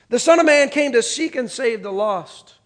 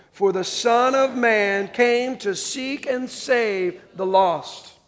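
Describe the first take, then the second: First: Said in the usual way. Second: Very slow, measured unison reading; reading together. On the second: Shown as a demonstration. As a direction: drag each word so the room can read along. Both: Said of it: "Read this last line with me".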